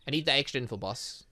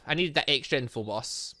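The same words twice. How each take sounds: The two takes are said the same way.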